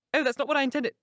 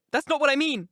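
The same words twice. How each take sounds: First: Higher voice, stress on what; Catherine protesting. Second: Louder and higher, what stressed, falling; Catherine insisting. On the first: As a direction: correct Nelly, a little stung. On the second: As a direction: press the point home. Catherine voiced in reading. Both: A narrator's reading.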